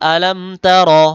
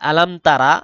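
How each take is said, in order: First: The second word ends on the consonant r. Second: The second word ends with an added vowel. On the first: The speaker calls it right. "বলতে হবে আলাম তার" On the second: The speaker calls it wrong. "আলাম তারা এরকম বলা যাবে না"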